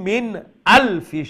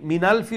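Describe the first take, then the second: First: A strong glottal stop begins the second word. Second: The words run together with no glottal stop. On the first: The speaker calls it right. "আলফিও যে আমি হামজা উচ্চারণ করলাম দেখলেন একটু পাওয়ার" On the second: The speaker calls it wrong. "মিনালফি মিনালফি হই যার"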